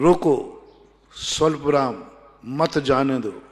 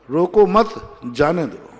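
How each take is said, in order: First: There is a pause right after roko. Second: There is a pause right after mat. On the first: Stop, do not let it go. "रोको, स्वल्प विराम" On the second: Do not stop, let it go. "मत के बाद सुन"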